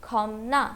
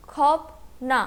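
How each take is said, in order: First: "खौम ना" with m before the n; demonstrated "खौम ना", no p at the join; p changed to m. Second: Said in the usual way. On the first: Shown as a demonstration. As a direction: say "खौम ना", closing the first syllable on m. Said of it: "this word will be pronounced as". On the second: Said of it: "first syllable ends in फियप".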